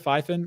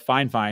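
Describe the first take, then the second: First: The name is said as two short syllables, fifen. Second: The name is said as two 'fine' syllables. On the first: The speaker calls it wrong. "not Fifen, excuse me" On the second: The speaker calls it right. "Fine Fine, not Fifen"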